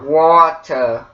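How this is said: The T is hard and the R is dropped. "you say the T as a hard T... you don't say the R at all"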